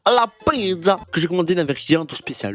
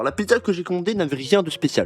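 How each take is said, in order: First: It is read in an Italian accent. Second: It is read in a plain French accent.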